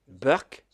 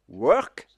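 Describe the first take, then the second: First: It starts with a B sound, Indian-style. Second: It starts with a W sound.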